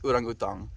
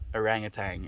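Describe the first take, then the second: First: It is said with an Afrikaans pronunciation. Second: It is said with an English pronunciation. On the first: "That's the way we say it in Afrikaans" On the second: "is the way you say it in English"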